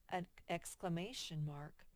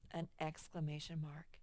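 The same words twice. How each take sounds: The two takes are said the same way.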